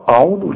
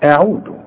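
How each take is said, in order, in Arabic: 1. الهمزة والعين والذال ثقيلة وغليظة. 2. الهمزة والعين والذال خفيفة ورفيعة. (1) "مش عاوزين نبتدئ ونقول أعوذ" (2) "لا أعوذ، فحنرقق قوي الهمزة والعين والذال"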